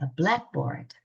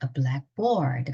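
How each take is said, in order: First: The stress falls on black. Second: The stress falls on board. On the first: It means a chalkboard. "칠판이죠" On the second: "띄워놓고 강세가 뒤로 가면"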